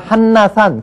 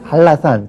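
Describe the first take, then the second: First: It is said with an n then l sound. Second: It is said with a double l sound. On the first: This is how the word is written. "우리가 한라산 그렇게 쓰죠" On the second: This is how the word is actually pronounced. "그러나 발음은 한라산 그렇게 발음을 합니다"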